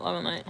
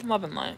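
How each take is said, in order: First: Said in the usual way. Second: Very soft blessing. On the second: Real, not acted. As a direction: breathe it out gently as a blessing.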